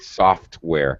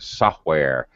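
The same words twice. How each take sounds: First: Every sound in the word is fully finished. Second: Some sounds in the word are cut off. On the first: The speaker calls it right. "Make sure you finish the sound" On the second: The speaker calls it wrong. "I heard software. You have to finish the sounds"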